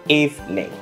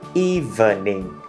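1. Từ này được đọc thành hai âm tiết. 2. Từ này được đọc thành ba âm tiết. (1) "trong thực tế người ta chỉ đọc thành 2 thôi" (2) "thành 3 âm tiết đúng không?"

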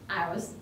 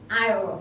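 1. Từ này được đọc có âm s. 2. Từ này được đọc không có âm s. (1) "not aisles" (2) "S là âm câm và chúng ta sẽ không đọc âm này nhé"

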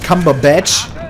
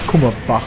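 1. Der Name endet auf einen 'batch'-Laut. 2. Der Name endet auf einen 'bach'-Laut. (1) "Der ist nämlich Cumberbatch" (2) "Nicht Kummerbach, oder wie ich den genannt habe"

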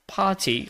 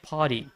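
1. Bunyi t-nya tegas dan meledak, seperti dalam aksen British. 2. Bunyi t berubah jadi d yang lembut, seperti dalam aksen American. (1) "Kalau British itu lebih lebih seksi... party kayak cehnya itu muncrat" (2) "kalau yang American itu kan kalau T di dihampit oleh dua vowel itu jadi D"

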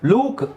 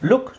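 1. ಸ್ವರ ದೀರ್ಘ, ಎಳೆದಂತಿದೆ. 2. ಸ್ವರ ಹ್ರಸ್ವ, ಚುಟುಕಾಗಿದೆ. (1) "ದೀರ್ಘ ಎಳಿತಾ ಇಲ್ಲ, ಲೂಕ್ ಕೂಕ್ ಅಂತೇನಿಲ್ಲ" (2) "ಡಬಲ್ ಓ ಇದ್ರೂ ನಾವು ಅದನ್ನು ಸಿಂಗಲ್ ಉ ಅಂತಲೇ ಹೇಳೋದು"

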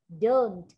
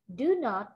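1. Nó được nói thành một từ rút gọn, ngắn. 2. Nó được nói thành hai từ riêng biệt, đầy đủ. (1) "khi ta viết tắt, ta đọc là don't" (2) "từ do not"

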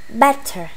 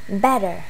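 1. Chữ t ở giữa là âm t rõ ràng. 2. Chữ t ở giữa nghe như d mềm. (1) "mình học giáo trình Anh nên là mình cứ t ha" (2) "người ta sẽ đọc cái chữ này là better, bottom ha, chữ t biến thành d"

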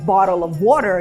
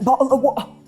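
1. Звуки t вимовляються повністю. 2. Звуки t замінюються гортанною зупинкою. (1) "вимовляють «bottle of water»" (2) "як «bottle of water»"

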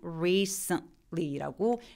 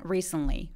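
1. 천천히 말하면 t 앞에서 잠깐 끊어서 소리가 나요. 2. 빠르게 말하면 t가 걸리지 않고 이어져요. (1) "천천히 발음하면" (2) "빨리 발음하면 ... T 굳이 참 안 안 참고"

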